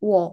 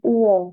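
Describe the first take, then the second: First: The vowels merge into one quick glide, wo. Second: Two vowel sounds, u then o, are said separately. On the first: "orang kayak ngomongnya cepet-cepet biasanya kayak langsung wo" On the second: "Ini uwo"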